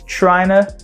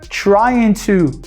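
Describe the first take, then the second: First: The words blend into one reduced form. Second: Both words are said fully and separately.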